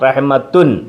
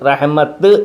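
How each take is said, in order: First: The word ends with a full 'tun' syllable. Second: The word ends with a bare 't' sound.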